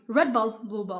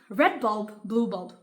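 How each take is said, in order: First: It is said very fast. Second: It is said fast.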